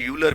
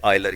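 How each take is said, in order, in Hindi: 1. इस नाम की शुरुआत 'yoo' की ध्वनि से होती है। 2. इस नाम की शुरुआत 'eye' की ध्वनि से होती है। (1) "इसे कुछ बच्चे यूलर भी पढ़ते हैं, सो आई एडवाइज यू के से यूलर ना पढ़े" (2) "आप इसे आयलर ही पढ़िए"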